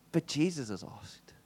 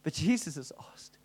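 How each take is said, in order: First: Softly, slowly, to himself; hushed conviction; quiet and slow. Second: Whispered to himself; a hushed whisper of resolve. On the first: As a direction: let it sink in quietly. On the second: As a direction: breathe it out as a secret. Repeats it as a whisper. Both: Retold or imitated.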